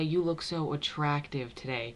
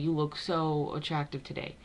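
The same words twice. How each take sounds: First: The stress falls on the word attractive. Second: The stress falls on the word so. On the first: A man is saying it. "A man would say" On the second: A woman is saying it. "a woman would say"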